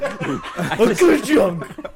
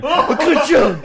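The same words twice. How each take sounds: First: Drawn out laughing clunk; very slow printing press. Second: Slow printing press voice. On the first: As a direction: stretch the ka-chunk way out, laughing. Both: Pretend. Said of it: "you've done that".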